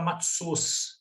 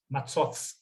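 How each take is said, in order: First: The word ends in an s sound. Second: The word ends in a th sound. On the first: This is how a Yiddish speaker says it. "Ele vai falar com S no final" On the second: This is the ancient biblical pronunciation. "era um interdental. Como esse seria o T H do inglês"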